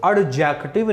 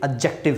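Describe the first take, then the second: First: Slow "एडजेक्टिव" with the D pronounced separately; ad-jektiv, slowly, for "एडजेक्टिव"; D wrongly sounded. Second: "एडजेक्टिव" as a-jektiv; silent D. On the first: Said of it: "ठीक वैसे ये एडजेक्टिव नहीं है". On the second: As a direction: leave the D out of "एडजेक्टिव". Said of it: "ये एडजेक्टिव नहीं है". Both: Shown as a demonstration.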